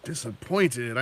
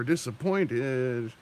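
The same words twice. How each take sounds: First: Said in the usual way. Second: Very slow, drawn-out "Disappointed"; slow mock-disappointed "Disappointed"; Kevin Sorbo disappointed. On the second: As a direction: stretch "Disappointed" way out like the gif. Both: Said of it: "Kevin Sorbo gif".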